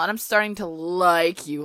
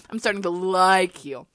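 First: Said in the usual way. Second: "like" punched hard, as if written in bold; stress on like. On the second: Shown as a demonstration. Rereading the fanfic line with "like" stressed as the bold demands. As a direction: lean into "like" with a falling hit. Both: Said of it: "Like is written in bold".

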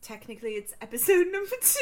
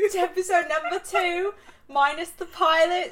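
First: Put-on high-pitched British accent, laughing; pitched up, posh British correction. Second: Put-on high-pitched British accent. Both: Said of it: "We do the whole thing in a British accent".

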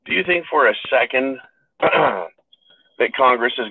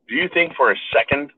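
First: "do you think for a second" drawn out slowly, each word weighted; slowed emphatic repeat. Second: Said in the usual way. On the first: Real, not acted. Pressing viewers to doubt Congress, slow and weighted. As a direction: lean hard on "think" and slow right down.

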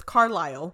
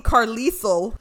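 First: Carlisle as "car-LYLE", silent s; correct pronunciation. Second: Carlisle as "car-LEE-sul", sounding the s; misread pronunciation. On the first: Host naming the Twilight doctor, correct pronunciation. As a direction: say Carlisle to rhyme with "mile". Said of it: "I didn't read his name as". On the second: Host confessing how she read the name, misread pronunciation. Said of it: "I read it as". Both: Shown as a demonstration.

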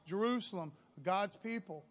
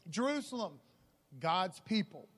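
Both takes have the same delivery.

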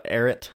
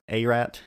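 First: "Ararat" shortened to AIR-it; tentative pronunciation. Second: "Arat" as AY-rat, with a clear final "rat"; alternative pronunciation. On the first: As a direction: say "Ararat" as two syllables, AIR-it. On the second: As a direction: try "Arat" with a long A first. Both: Real, not acted. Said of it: "I don't know how you pronounce it".

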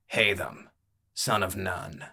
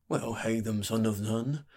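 First: Understated, falling statement of a name; terse fighter. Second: Lightly voiced barkeep, rising at the end; musing barkeep. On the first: Acted. Fighter giving his name to the barkeep, tersely. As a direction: give the name and leave it there. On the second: Barkeep repeating a newcomer's name back, musing. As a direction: weigh up the name as you repeat it.

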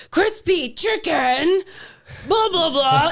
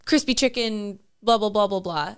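First: Slow, high, loud mock repeat; exaggerated exasperated repeated order; loud over-enunciation. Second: Said in the usual way. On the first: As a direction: pronounce each word loudly for someone who misheard. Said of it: "It's very loud. You pronounce each word". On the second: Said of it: "he'll do that same thing too".

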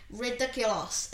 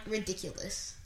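First: "Ridiculous" with a full "-loss" ending; mum's odd pronunciation. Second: Said in the usual way. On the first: Retold or imitated. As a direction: imitate mum's "Ridiculous", last syllable as "loss". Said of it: "And Mum was like". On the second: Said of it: "And I'm like".

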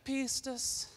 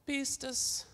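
First: "Pistis" with an aspirated P, high and soft; Greek pronunciation. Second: Pistis, said high and soft as Greek PIS-tis; Greek pronunciation. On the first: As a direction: model "Pistis" in Greek for the congregation to repeat. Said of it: "you gotta say it like that". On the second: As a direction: give "pistis" its Greek sound, lightly and up high. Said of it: "It's Greek, so you gotta say it like that". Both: Shown as a demonstration.

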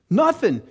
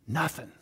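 First: Exasperated punch. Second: Quietly deadpan, voice drops right off; flat quiet letdown. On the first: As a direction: hit Nothing hard like the last straw. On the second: Preacher telling the congregation the car died, hushed and deflated. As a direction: say Nothing as a soft, deflated aside. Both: Retold or imitated. Dead car, told twice.

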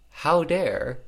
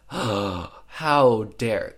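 First: Said in the usual way. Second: Loud, indignant how dare; mock outrage. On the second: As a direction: act scandalised, hammed up. Barb finds Jackson cheating.

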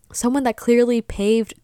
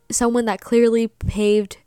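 The two takes are said the same way.

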